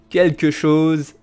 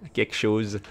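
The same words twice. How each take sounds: First: The first word is said fully as quelque. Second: The first word is shortened to kek. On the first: "c'est une prononciation correcte" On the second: "the common way to say that"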